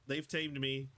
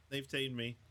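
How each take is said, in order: Both takes have the same delivery.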